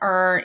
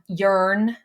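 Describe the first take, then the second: First: The word begins with a plain vowel. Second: The word begins with a y sound. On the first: The speaker calls it right. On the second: The speaker calls it wrong.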